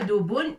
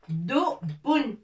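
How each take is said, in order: First: The b sound is short and single. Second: The b sound is pressed hard and doubled. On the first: The speaker calls it wrong. "C'est pas dubun" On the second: The speaker calls it right. "avec shidda, ça se prononce bun"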